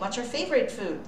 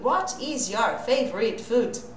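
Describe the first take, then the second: First: What is is contracted into one syllable. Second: What is is said as two full words. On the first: The speaker calls it right. "E sim" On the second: The speaker calls it wrong. "A fala não é assim"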